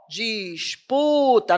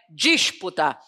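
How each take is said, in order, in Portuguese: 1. A tônica está na penúltima sílaba. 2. A tônica não está na penúltima sílaba. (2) "não é disputa"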